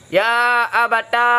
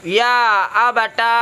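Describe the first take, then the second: First: The word ends in a long a vowel. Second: The same.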